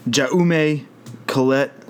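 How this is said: The name is said with an American pronunciation. "That is as American as I can"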